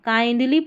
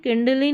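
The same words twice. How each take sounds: First: Kindly with a long "eye" vowel; correct "kaindlee" pronunciation. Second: Kindly said as "kindli", short "ih" vowel; mistaken "kindlee" reading. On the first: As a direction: say kindly with "kind" rhyming with "find". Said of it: "kindly पढ़ेंगे". (kindly यानी काइंडली, "आइ" के साथ) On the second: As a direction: misread kindly with the vowel of "pin". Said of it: "kindly नहीं पढ़ना है". (kindly को "किंडली" बोलें) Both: Shown as a demonstration.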